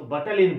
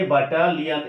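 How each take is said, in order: First: Said in the usual way. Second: Spell-along ব্যাটালিয়ন, each syllable given its own beat. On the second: Shown as a demonstration. (ব্যাটালিয়ন ভেঙে ভেঙে উচ্চারণ) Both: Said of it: "ভেঙে ভেঙে উচ্চারণ করাটা ভালো".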